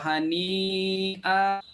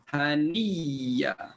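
First: The word has a glottal stop in the middle. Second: The word has a doubled y in the middle. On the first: "Kalau hani'a jadi bunyinya macam mana?" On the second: "Hamzah tukar jadi ya, ya pertama masuk dalam ya kedua"

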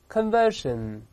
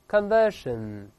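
The two takes are said the same way.

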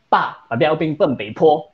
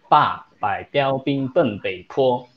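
First: The tongue twister is recited at a fast pace. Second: The tongue twister is recited at a slow pace. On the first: "我们来快点了。" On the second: "这个是有点慢，"

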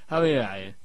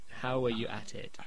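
First: The w in 'were' is clipped and barely heard. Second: The w in 'were' is clearly pronounced. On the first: The speaker calls it wrong. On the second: The speaker calls it right.

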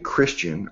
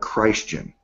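First: The first syllable sounds like a short 'kris'. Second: The first syllable sounds like the name Christ.

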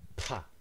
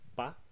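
First: The p is released with a strong puff of air. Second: The p is released without a puff of air. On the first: "The second one has a strong puff of air" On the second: "This one is a P without aspiration"

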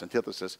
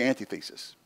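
First: The word is said as one single unit. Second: The word is split into anti and thesis. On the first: "it's pronounced antithesis" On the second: "if we hyphenate it, it would be antithesis"

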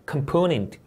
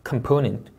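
First: The stress is on the second syllable. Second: The stress is on the second syllable.

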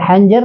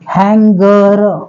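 First: The middle consonant is a j sound. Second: The middle consonant is a hard g sound. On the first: The speaker calls it wrong. "कोणी कोणी याला हँजर वाचतं, हँजर नाहीये" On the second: The speaker calls it right. "जीचा उच्चार ग होतो"

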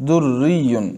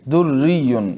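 The two takes are said the same way.

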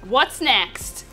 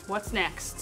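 First: It is said more loudly. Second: It is said at a normal, quieter volume.

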